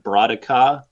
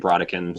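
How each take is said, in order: First: The name is said closer to French pronunciation. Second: The name is said with American English pronunciation. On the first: This follows the word's original language. "it's like a French word originally, so I think it's probably closer to like Brodica" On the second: This is how English speakers read it. "as American English speakers, we just say Brodican"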